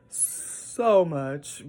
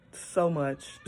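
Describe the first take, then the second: First: Laughed out, louder; laughing. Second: Said in the usual way. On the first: Real, not acted. Foster mom laughing at all she must learn. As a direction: laugh through the repeat.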